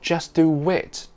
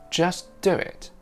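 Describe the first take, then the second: First: A full w sound joins do and it. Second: A faint w sound joins do and it. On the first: The speaker calls it wrong. "It's not just do wit. The w is very subtle" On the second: The speaker calls it right. "Listen out for that tiny bit of w sound between do and it"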